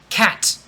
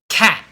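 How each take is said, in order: First: The final T has a slight audible release. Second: The final T is stopped with no release. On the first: "a little bit of a T" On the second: "There's no T when I say cat because I stop really quickly"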